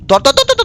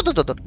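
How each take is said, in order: First: High, quick grab urging; excited high urging. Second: Soft, low grab urging; hushed repeat. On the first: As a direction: snap it out in a rush. Frantic grab in game. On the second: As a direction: drop it to a hush. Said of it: "sound করন যেত না". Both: Real, not acted.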